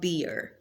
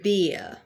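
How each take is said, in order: First: The final R sound is clearly pronounced. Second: The final R sound is not pronounced. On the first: The speaker calls it wrong. "not beer" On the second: The speaker calls it right. "they are not pronouncing it, so it is beer"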